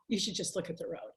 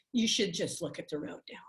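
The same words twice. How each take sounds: First: Whispered to herself, much softer; a driver's whispered self-talk, scolding herself. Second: Said in the usual way. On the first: Retold or imitated. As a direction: whisper the reminder under your breath. Talking to herself while driving.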